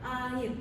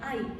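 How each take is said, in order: First: Two separate vowels, ending with an r sound. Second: One merged gliding vowel, with no final r. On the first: This is the standard adult pronunciation. "deret vokal yang diucapkan terpisah" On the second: A young child simplifies the word this way. "anak ini mengucapkan kata air sebagai ai"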